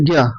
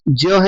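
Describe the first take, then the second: First: It begins with a g sound, like gya. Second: It begins with a j sound, like jnya. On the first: The speaker calls it wrong. "यह लोग बोलते ज्ञ" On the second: The speaker calls it right. "तो इसमें हम सुधार करेंगे"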